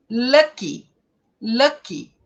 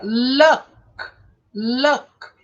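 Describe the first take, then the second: First: Lucky with a clear final ee; stress final i. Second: Luck stopped on the k, no vowel after. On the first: Teacher stressing the y ending of lucky. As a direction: mark the y of lucky as i. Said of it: "você precisa marcar bem". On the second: Teacher contrasting luck with lucky. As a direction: end luck hard on k. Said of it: "que termina L U C K". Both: Shown as a demonstration.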